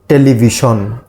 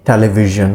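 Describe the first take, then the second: First: The middle consonant is said in a Bengali way. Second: The middle consonant is said in a native English way. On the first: The speaker calls it wrong. "Bengali people uh, say it like uh, television. It's the wrong pronunciation" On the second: The speaker calls it right. "the native speakers, they usually pronounce it as a television"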